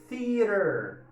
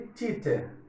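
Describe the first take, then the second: First: The middle consonant is a quick tap. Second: The middle consonant sounds like ch. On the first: The speaker calls it right. "Eu tenho o T H, aquele sopinho... E tem o T entre vogais... Bem caipira no final" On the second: The speaker calls it wrong. "nada de teacher, teacher, ou erradíssimo"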